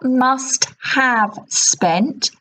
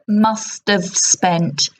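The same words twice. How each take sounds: First: The word have is said in full. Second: The word have is reduced to 'of'. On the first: The speaker calls it wrong. "It's not must have spent" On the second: The speaker calls it right. "So the have gets shortened to of"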